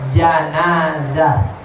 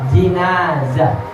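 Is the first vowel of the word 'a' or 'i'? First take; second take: a; i. First: The first vowel is an 'a' sound. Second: The first vowel is an 'i' sound. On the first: "Yang pertama pakai fathah" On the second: "Yang kedua pakai kasrah"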